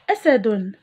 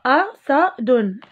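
First: Said in the usual way. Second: أسد stretched slowly; teacher drawing out أسد; slow model word. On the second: Shown as a demonstration. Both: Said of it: "المقطع الأول".

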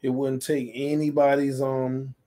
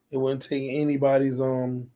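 No difference in how they are said.

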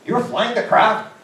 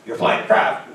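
First: Much higher, slow, drawn-out disbelief; second, bigger disbelieving take; stunned disbelief. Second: Disbelieving question, raised in pitch; first amazed take of you're flying the craft; surprised question. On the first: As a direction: stretch each word out in amazement. Retelling his disbelief, stretched. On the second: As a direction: ask it amazed. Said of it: "I went". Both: Retold or imitated.

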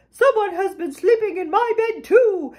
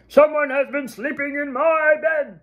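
First: Higher, indignant mama bear cry. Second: Big, gruff storybook bear bellow; bellowing papa bear. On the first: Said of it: "Mama Bear cried". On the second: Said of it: "Papa Bear bellowed". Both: A narrator's reading.

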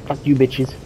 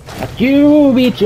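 First: Said in the usual way. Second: High, loud taunting shout; defiant yell. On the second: Real, not acted. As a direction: scream it back at the monster. Yells at monster while fleeing.

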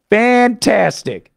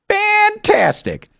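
First: Said in the usual way. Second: Fantastic slow and much higher. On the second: Shown as a demonstration. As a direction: lift Fantastic way up, drawn out.

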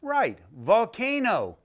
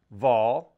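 First: "volcano" said slowly as one whole word; blended word. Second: "Volcano." broken into three beats, vol, ca and no; split into syllables. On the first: Teacher confirming the blended word for children, "volcano" smooth. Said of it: "What's the word?". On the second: Teacher modeling syllables for children, "Volcano." segmented. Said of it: "this one's gonna be three syllables". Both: Shown as a demonstration.

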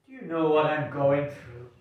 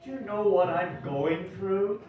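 First: Louder plea, falling at the end; a lightly voiced troubled character, falling tune; distressed plea. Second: Higher, pleading question rising at the end; a lightly voiced troubled character, rising tune; rising distress. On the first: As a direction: pour out the trouble, heavy ending. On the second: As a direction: say it again, more desperate and higher.

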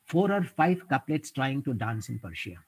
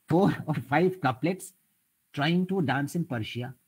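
First: Said in the usual way. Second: Slower and higher, savouring each word of 'Four or five couplets'; slow poem recital. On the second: Shown as a demonstration. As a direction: recite the couplet slowly like verse. (savoured couplet recital) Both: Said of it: "a very interesting couplet I will quote".

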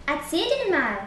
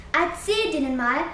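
First: Mock parroting of the friend's advice; mocking imitation. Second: Said in the usual way. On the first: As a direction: repeat "Erzähl denen mal" with a sneering lilt. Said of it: "äffte Willi nach". (spöttisch nachgeäfft) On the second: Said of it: "riet Androwski".

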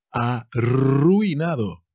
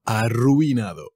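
First: Arruinado slowed, with the double R rolled as a long trill; careful double R. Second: Said in the usual way. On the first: Shown as a demonstration. Teacher warning learners about the two R's, Arruinado slow with a rolled trill. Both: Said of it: "Cuidado con las dos R's ahí".

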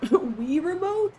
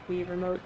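First: Laughing reading. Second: Said in the usual way. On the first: Real, not acted. Reading a funny chat suggestion.

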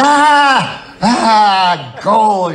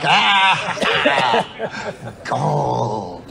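First: High, loud squawking cartoon duck; excited cartoon duck cry; Daffy Duck. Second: Deflated gold. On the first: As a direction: shriek for joy like Daffy Duck. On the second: Retold or imitated. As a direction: let the joy collapse into a whimper. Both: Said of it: "You're like Daffy Duck".

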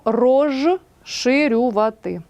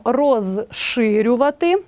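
First: «розширювати» said slowly with з turned to ж, "rozhshyriuvaty"; slow pronunciation demo. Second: Said in the usual way. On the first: Shown as a demonstration. Teacher slowly showing the spoken form of «розширювати». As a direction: draw out «розширювати», softening з into ж. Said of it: "а вимовляємо і транскрибуємо". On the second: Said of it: "пишемо".

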